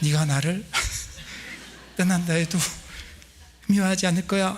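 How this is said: It is said in a put-on female voice.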